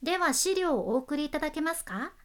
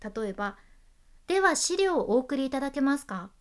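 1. 文末で音の高さが上がります。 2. 文末で音の高さが下がります。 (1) "語尾上げたバージョン" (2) "語尾下げたバージョンで言うと"

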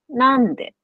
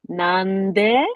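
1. 最初の音節は高いです。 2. 最初の音節は低いです。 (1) "普通標準は" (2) "関西弁は、なんで ながもう下から始まってる"

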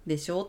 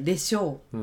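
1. 語尾で音が上がります。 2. 語尾で音が下がります。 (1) "でしょうってあげないで" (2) "落とす言い方、でしょうってこう、ちょっと断言的な感じで"

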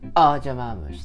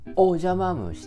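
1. 最初の母音は「あ」に近い音で、口は丸めています。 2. 最初の母音は、はっきりした丸い「お」です。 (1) "おの口であっていう" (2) "おをおと発音するか"

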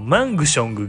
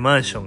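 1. この単語には余分な「g」の音が入っている。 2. この単語には余分な「g」の音は入っていない。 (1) "G 発音せんでいいね" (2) "もともとG 入ってないから"

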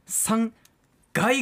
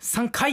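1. 2つ目の部分は、有声の g の音で始まります。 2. 2つ目の部分は、無声の k の音で始まります。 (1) "実は3 回が正解なんですね。" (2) "3 回って言ってましたね、"

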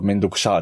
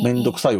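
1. 語尾は長い -shaa の発音です。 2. 語尾は標準の -sai の発音です。

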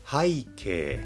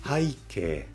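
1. 新しくて広く使われているアクセントです。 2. 新しくて広く使われているアクセントです。

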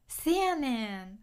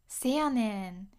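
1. このフレーズは短い'se'の音で始まります。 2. このフレーズは短い'se'の音で始まります。

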